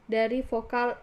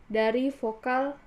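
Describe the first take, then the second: Both takes have the same delivery.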